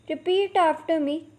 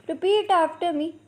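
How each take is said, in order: Both takes have the same delivery.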